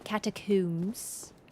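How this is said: The last syllable has an oo vowel. "really British accents will say catacombs. Like with a oo sound"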